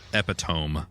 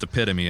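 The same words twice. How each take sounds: First: The word is said as a spelling-based misreading. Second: The word is said with its usual pronunciation. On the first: The speaker calls it wrong. "that's not how you pronounce that word" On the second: The speaker calls it right. "It's pronounced epitome"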